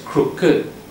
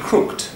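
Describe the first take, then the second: First: The -ed ending is an extra syllable. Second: The -ed ending adds no extra syllable. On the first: "they said an extra syllable" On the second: "That should be crooked, like you were saying it"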